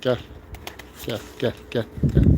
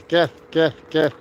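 First: Soft coaxing call to pigeons. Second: Said in the usual way. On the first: Real, not acted. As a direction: lower and softer, gently calling the birds.

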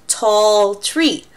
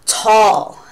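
First: Said in the usual way. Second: Gasp, then a drawn-out awed tall; amazed tall. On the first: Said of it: "So you can be like". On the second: Shown as a demonstration. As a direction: act wowed by how tall it is. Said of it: "just to emphasize the word tall".

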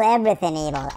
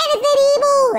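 First: Dropped down low after the yell; low restatement. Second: Very high, loud playful cry; mock threatening yell. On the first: Pretend. Player repeating his threat to evil, low matter-of-fact voice. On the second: Player threatening to spank evil, high mock yell.

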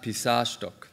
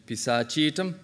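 First: Pisashtok with sh straight onto tok, no vowel between; deleted vowel. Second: Pisachitum with a full, stressed CHI; accented, saved vowel. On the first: Lecturer showing the wrong form, pisashtok with vowel deleted. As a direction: drop the vowel in pisashtok, stressing SA. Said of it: "not pisashtok". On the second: Lecturer showing blocked deletion, CHI stressed in pisachitum. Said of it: "vowel is saved because it's accented". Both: Shown as a demonstration.

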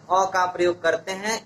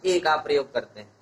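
First: अ said as a short "uh"; अ as unstressed "uh"; weak article A. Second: ए said as a long "ay"; ए with a long "ay" vowel; letter-name A. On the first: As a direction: say अ with the neutral vowel, not "ay". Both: Shown as a demonstration. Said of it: "ए को हम अ भी पढ़ते हैं".

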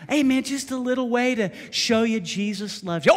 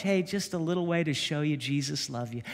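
First: Higher mock offer. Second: Said in the usual way. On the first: Shown as a demonstration. Repeating line with mock fight.

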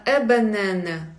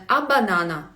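First: "е банана" as eh buh-NEH-neh; mouth barely open. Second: "а банана" as ah ba-NA-na; wrong-example "а банана" with wide vowels; open A vowels. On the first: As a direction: keep every vowel in "е банана" narrowed. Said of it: "не відкривати сильно ротом". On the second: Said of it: "Бачите, не а банана". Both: Shown as a demonstration.

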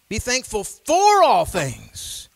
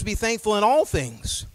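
First: "for" drawn out, high and loud; stress on "for". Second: Said in the usual way. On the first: Shown as a demonstration. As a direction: lean long and hard on "for". Verse repeated with "for" swapped in.

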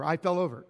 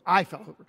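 First: Said in the usual way. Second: "I" hit louder, as a correction; stress on I. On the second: Real, not acted. Owning up to the bike fall, stress on "I". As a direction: punch the word "I". Corrects himself on who fell.

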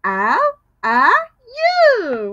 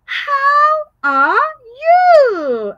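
First: Spaced out, one word at a time; slow word by word. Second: High, loud sung-out question; asking question. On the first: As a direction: say each word separately. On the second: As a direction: ask the class brightly. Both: Shown as a demonstration. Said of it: "I'm asking you".

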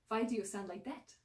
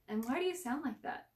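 First: Put-on thick Russian accent, "Why" starting with a v. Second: Said in the usual way. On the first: A narrator's reading. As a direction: throw the question out in a Russian accent. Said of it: "coated with a thick Russian accent". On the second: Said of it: "asked the still confused Sam".

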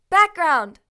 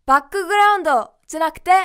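First: バックグラウンド with a bare k and no added vowels; English background. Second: バックグラウンド with full ku and do vowels; wrong katakana way. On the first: Teacher modeling the correct English for students. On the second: Teacher showing learners the wrong reading. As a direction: say バックグラウンド Japanese-style, ba-ku-gu-ra-un-do. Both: Shown as a demonstration.

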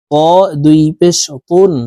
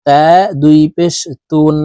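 First: ত said heavy and thick. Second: তা said light and thin. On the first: Teacher contrasting the two ta letters for viewers, thick one. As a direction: make ত full-mouthed and heavy. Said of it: "ত হরফকে মোটাভাবে উচ্চারণ করতে হবে". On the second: Teacher contrasting the two ta letters for viewers, thin one. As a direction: keep তা light and thin, mouth not full. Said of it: "তা পাতলাভাবে উচ্চারণ করতে হবে". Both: Shown as a demonstration.

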